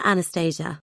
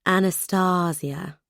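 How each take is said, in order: First: "Anastasia" as an-a-STAY-zha, plain English; "Anastasia" anglicised, stress on STAY. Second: "Anastasia" slowed, long R's, soft S's, stress on "stA"; "Anastasia" drawn out with stress on the middle syllable; Estonian-style name. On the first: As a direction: say "Anastasia" with a long STAY and a zh sound. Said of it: "never Anastasia". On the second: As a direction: say "Anastasia" slowly as ah-nah-STAH-see-ah, soft S's. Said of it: "long R's and soft S's, emphasis on the middle syllable". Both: Acted.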